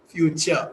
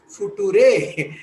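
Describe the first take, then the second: First: It is said as one natural word. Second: It is read as few-two-ray, letter by letter. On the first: The speaker calls it right. "What is it actually? It is future" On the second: The speaker calls it wrong. "F U few, T U two, R E ray. She will read future"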